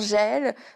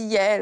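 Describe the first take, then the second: First: The name begins with a 'zh' sound. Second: The name begins with a 'y' sound. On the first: This is the speaker's habitual way of saying it. The speaker calls it wrong. "moi je dis souvent Jaël" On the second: This is how the name is properly said. The speaker calls it right. "mais ça se dit Yael"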